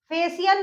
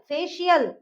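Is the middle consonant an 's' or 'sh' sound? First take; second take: s; sh. First: The middle consonant is a plain 's' sound. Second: The middle consonant is a 'sh' sound. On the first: The speaker calls it wrong. "फेशियल नहीं बोलते हम इसको" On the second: The speaker calls it right. "शियल"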